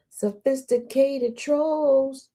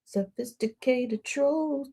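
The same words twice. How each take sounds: First: Sophisticated trolls stretched slow and grand; drawn-out grand title. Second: Sophisticated trolls drawn out slowly, falling at the end; slow savoured repeat. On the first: Host hailing the trolls in a slow drawn-out announcement. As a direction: savour each syllable of Sophisticated trolls. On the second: Host repeating the name slowly and fondly. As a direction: stretch out Sophisticated trolls like a title. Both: Shown as a demonstration. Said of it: "for the sophisticated trolls".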